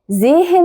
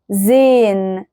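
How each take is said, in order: First: The h in the middle is clearly sounded. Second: The h is silent and the vowel is lengthened. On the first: The speaker calls it wrong. "فما ينفعش تقول زيهن" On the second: The speaker calls it right. "هل سمعتوا نطق الها كده واضحة وصريحة؟ لا"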